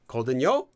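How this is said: The pitch rises on the last syllable. The speaker is talking down to someone. "if you give a rising intonation to the last syllable, it sounds like you're talking down"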